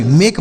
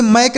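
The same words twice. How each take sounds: First: मेक with a long e vowel, as in make; correct "make" sound. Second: मैक with the open ae vowel of "mack"; wrong vowel as in mack; wrong "mack" sound. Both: Shown as a demonstration. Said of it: "इसे मैक नहीं पढ़ेंगे".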